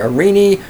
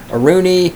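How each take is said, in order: First: The middle vowel sounds like 'ee'. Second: The middle vowel sounds like 'oo'. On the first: The speaker calls it right. "I think Arini is right" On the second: The speaker calls it wrong. "I think I always say Aruni"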